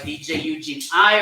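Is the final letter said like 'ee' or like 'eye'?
eye. The last letter sounds like 'eye'. This is the name as its owner says it. "So that's why [name] I"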